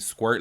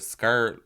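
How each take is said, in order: First: The word starts with an skw sound. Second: The word starts with a plain sk sound. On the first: This is the usual way to say it. "You mean squirt?" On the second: This is how the mother says it. "she just pronounces it that way"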